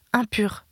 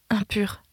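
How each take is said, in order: First: Said in the usual way. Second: Breathless whispered warning, no voice; a leper's hushed warning call; whispered cry. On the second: A narrator's reading. Mother warns the stranger, whispered cry. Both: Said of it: "s'écria d'une voix perçante".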